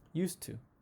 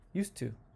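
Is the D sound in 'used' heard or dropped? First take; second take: dropped; dropped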